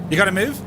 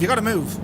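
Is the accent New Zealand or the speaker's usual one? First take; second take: New Zealand; usual. First: It is said in a New Zealand accent. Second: It is said in the speaker's usual accent. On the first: "can I do a Kiwi accent?" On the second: "But they don't sound anything like that"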